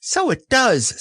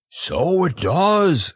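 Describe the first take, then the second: First: Very high little squeak; small, high-pitched echo; delighted Piglet. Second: Slow, high bear voice; hearty, stretched-out wonder; admiring Pooh. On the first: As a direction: pipe up in tiny-animal wonder. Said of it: "said Piglet". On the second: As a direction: marvel with drawn-out "does". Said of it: "said Pooh". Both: A narrator's reading.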